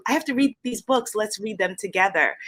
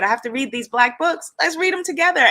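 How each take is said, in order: First: Lightly voiced teacher, "read" lifted; retold teacher invitation. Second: Higher, louder, eager teacher voice. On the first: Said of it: "And she said". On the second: Retold or imitated. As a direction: lift "Let's read them together" high and emphatic.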